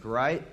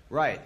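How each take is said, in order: First: "right?" with a rising question tune; questioning rise. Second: "Right." with a falling, clipped-off tune; sarcastic answer. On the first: Narrator seeking agreement, "right?" rising. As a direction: ask "right?" hopefully, tune up at the end. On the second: Narrator answering his own hope, "Right." falling. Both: Retold or imitated.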